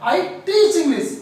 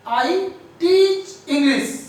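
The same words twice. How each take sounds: First: "teach" loud, higher and stretched; slow, loud "I teach English" with "teach" punched; forceful stress on teach. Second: "teach" loud, high and drawn out; very slow, loud, emphatic "teach English"; forceful stress on teach. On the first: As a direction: push "teach" to convince. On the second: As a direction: insist hard on "teach". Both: Shown as a demonstration. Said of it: "हमने इसको बहुत फोर्सली बोला".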